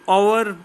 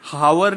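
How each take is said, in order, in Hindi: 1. यह शब्द स्वर से शुरू होता है, h की आवाज़ नहीं है। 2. यह शब्द सुनाई देने वाली h की आवाज़ से शुरू होता है। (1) "सो हम आवर बोलते हैं" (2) "हावर नहीं बोलते"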